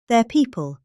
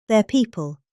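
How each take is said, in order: Both takes have the same delivery.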